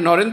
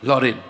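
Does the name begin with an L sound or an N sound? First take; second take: N sound; L sound. First: The name begins with an N sound. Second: The name begins with an L sound. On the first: This is the usual form of the name. "নরেন তো বলতেন না" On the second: This is how the name was actually said in the story.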